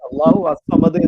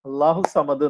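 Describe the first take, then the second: First: An 'a' vowel is sounded before 'samad'. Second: 'Allahu' runs straight into 'samad' without that vowel. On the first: The speaker calls it wrong. "അള്ളാഹു അസ്വമദ് എന്ന് നമ്മൾ പാരായണം ചെയ്യുന്നില്ല" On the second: The speaker calls it right. "അള്ളാഹു സമദ് എന്നാണ്"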